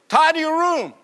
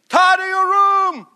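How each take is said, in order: First: It is said at normal volume. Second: It is said loudly.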